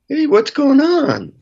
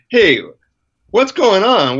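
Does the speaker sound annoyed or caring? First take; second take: caring; annoyed. First: The tone sounds warm and caring. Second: The tone sounds annoyed and impatient. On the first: The speaker truly wants to understand and help. The speaker calls it right. "That's very different" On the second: The listener is being blamed for being upset. The speaker calls it wrong. "I said, with my tone, I said, like, what's wrong with you?"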